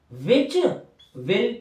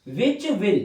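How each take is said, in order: First: Split into parts. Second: Said in the usual way. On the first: Shown as a demonstration. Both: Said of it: "which के साथ L जोड़ दो".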